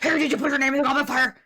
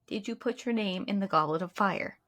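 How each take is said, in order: First: It is said angrily and dramatically. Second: It is said calmly and quietly.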